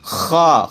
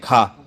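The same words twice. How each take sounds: First: The kh sound is made with friction deep in the throat. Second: The kh sound is made lightly, like everyday Hindi. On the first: This is how the letter should be said. The speaker calls it right. "क्या बोलना चाहिए?" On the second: This is the common mistaken way people say it. The speaker calls it wrong. "इसके बाद लोग खा बोलते हैं, खा गलत है"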